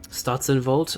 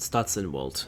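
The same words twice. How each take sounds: First: The W is pronounced like a V. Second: The W is pronounced like an English W. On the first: "Do you pronounce the W like a V?" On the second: "Or is it"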